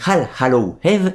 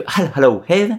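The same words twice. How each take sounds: First: Slow, self-conscious English accent on "All Hallow Eve"; bad English accent. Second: Bad English accent, repeated. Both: Shown as a demonstration. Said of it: "mon accent anglais qui est absolument terrible".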